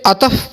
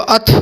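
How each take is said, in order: First: A vowel splits the word into two syllables. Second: The word is one syllable, no inserted vowel. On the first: The speaker calls it wrong. "इसे अतफ पढ़ना गलत है" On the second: The speaker calls it right. "वो अत्फ है"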